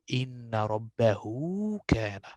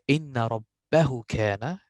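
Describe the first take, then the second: First: The vowel after 'rabbah' is long. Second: The vowel after 'rabbah' is short. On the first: The speaker calls it right. "I will say ... This wow here" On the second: The speaker calls it wrong. "I will not say"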